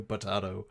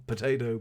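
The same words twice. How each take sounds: First: "potato" with a broad AH in the middle. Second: "potato" with an AY in the middle; long A in potato. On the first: Streamer shrugging off pigeon-owl mix-up, "potato" as po-TAH-to. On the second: Streamer shrugging off pigeon-owl mix-up, "potato" as po-TAY-to. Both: Shown as a demonstration. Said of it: "pigeon, owl".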